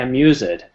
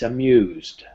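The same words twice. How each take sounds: First: The ending is a separate 'ed' syllable. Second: The ending is a plain d sound. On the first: The speaker calls it wrong. "We never say amused" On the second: The speaker calls it right. "It's amused"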